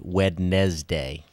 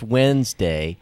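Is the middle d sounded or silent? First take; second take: sounded; silent. First: The d in the middle is sounded. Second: The d in the middle is silent.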